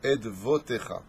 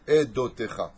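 First: The word is said with a v sound. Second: The word is said without a v sound. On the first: The speaker calls it right. "le Vav et le point qui est en haut se prononcent Vo. Donc Edvotecha" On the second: The speaker calls it wrong. "tu pourrais aussi le lire Edotecha. C'est une faute"

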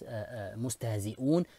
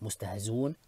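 First: A glottal stop is heard before the ending. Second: The glottal stop is dropped entirely.

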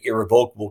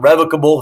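First: The word is said just as it is spelled. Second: The word is said the formal, fancy way. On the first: "it's pronounced like it looks" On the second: "if you want to be fancy schmancy"

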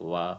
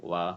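No difference in how they are said.

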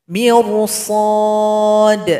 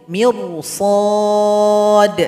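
No difference in how they are said.

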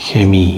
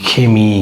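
No difference in how they are said.

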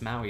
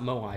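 First: The word sounds like 'mow-ee'. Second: The word sounds like 'mo-eye'. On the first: The speaker calls it right. "it's Maui statue" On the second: The speaker calls it wrong. "It's not Moai, I think I was pronouncing it wrong"

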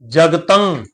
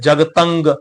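First: The word ends with a nasal sound, no hard g. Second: The word ends with a clear hard g sound. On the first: The speaker calls it right. "ਨਾਸਕੀ ਧੁਨੀ ਜਿਹੜੀ ਹੈ ਉਹ ਨਿਕਲੇਗੀ ਨੱਕ ਦੇ ਵਿੱਚ" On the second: The speaker calls it wrong. "ਪਿਛਲੇ ਪਾਸੇ ਗੱਗੇ ਦਾ ਉਚਾਰਨ ਕਰ ਜਾਂਦੇ, ਤਾਂ ਉਹ ਜਿਹੜਾ ਉਚਾਰਨ ਹੈ ਉਹ ਗਲਤ ਹੈ"

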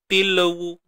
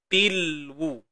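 First: An extra vowel is inserted after the l. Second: The l joins the w with no vowel. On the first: The speaker calls it wrong. "Tak mau tilawu" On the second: The speaker calls it right. "Jangan tawallud"

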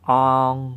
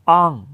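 First: The syllable is said with a mid tone. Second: The syllable is said with a falling tone. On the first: "ก็คือเสียงวรรณยุกต์สามัญ" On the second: "อ่องเสียงโทนะครับ"

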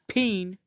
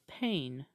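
First: The vowel sounds like the one in 'seen'. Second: The vowel sounds like the one in 'rain'. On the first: The speaker calls it wrong. "Not peen" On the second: The speaker calls it right. "This is pain"

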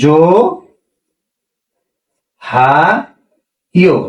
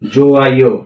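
First: An h sound is heard before the second syllable. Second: No h sound is heard before the second syllable. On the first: The speaker calls it wrong. "আমাদের উচ্চারণ হওয়া উচিত ছিল কি?" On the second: The speaker calls it right. "হিয়তের ব্যবহার হয় না, ... স্বরবর্ণ নিজেই উচ্চারণ হবে"

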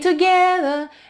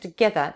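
First: The second syllable's vowel is drawn out long. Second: The second syllable's vowel is kept short. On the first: The speaker calls it wrong. "не together, ге не тянется" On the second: The speaker calls it right. "там э краткий"

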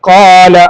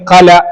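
First: The first vowel is held for two beats. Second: The first vowel is cut very short. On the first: The speaker calls it right. "ഒരു അലിഫിന്റെ സൈസ് മാത്രം" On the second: The speaker calls it wrong. "അല്ലെങ്കിൽ ഖല, അങ്ങനെയും പറ്റൂല"

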